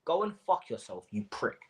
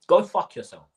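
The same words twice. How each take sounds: First: A cold, pointed insult spoken to his eyes; pointed, to his face. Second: Loud angry curse. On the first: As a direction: say it right to his face, each word aimed. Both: Real, not acted. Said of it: "look me in my eyes when I say this".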